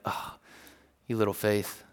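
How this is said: It sounds warm, full of compassion.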